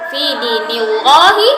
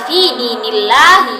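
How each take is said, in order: First: The L in Allah sounds thick and dark. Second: The L in Allah sounds thin and light. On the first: The speaker calls it wrong. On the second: The speaker calls it right. "lafaz Allahnya itu dibaca tipis"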